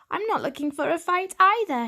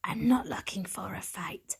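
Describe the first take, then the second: First: Put-on higher, brighter boy cat voice, earnest; young tomcat. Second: Gravelly cat voice. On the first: Lost young cat answering the stray, higher earnest voice. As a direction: pitch up for the young hero cat. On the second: Stray cat warning an intruder in her hut, gravelly whisper. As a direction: warn him off in a rough hushed rasp. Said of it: "Something in her gravelly voice". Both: A narrator's reading.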